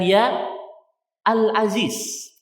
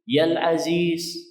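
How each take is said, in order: First: The article's opening is kept, not merged. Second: The article's opening is dropped and merged. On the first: The speaker calls it wrong. "bukan ya Al-Aziz" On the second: The speaker calls it right. "kan gitu cara bacanya"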